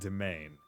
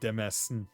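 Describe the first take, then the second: First: It is said like 'domain', with no s sound. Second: It is said with an s sound, like 'dez-mean'. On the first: This is how the word is actually pronounced. "I would never have gone domain" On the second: This is a guess from the spelling. "I would have said like Desmony or Demesn"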